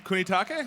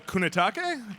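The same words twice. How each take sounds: First: Calling out. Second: Said in the usual way. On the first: Real, not acted.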